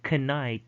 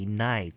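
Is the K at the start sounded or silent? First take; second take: sounded; silent. First: The K at the start is sounded. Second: The K at the start is silent. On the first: The speaker calls it wrong. "Instead of saying knight" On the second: The speaker calls it right. "you just say night"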